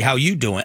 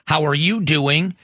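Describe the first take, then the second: First: It is said in a put-on Joey voice. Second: It is said in his own plain voice.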